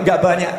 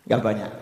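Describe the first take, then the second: First: Said in the usual way. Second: "Nggak banyak" dropped low and soft, ironic; preacher echoing "Nggak banyak" to the crowd with gentle irony; wry echo. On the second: Shown as a demonstration. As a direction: murmur "Nggak banyak" as a dry aside.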